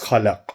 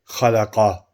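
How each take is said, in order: First: The word ends on a bare consonant. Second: The word ends with a final vowel sound. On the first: The recitation stops at the end of the verse. The speaker calls it right. "If you're going to stop like you did, then it's khalaq" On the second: The recitation carries on into the next verse. The speaker calls it wrong. "you're not going to say khalaqa and then stop"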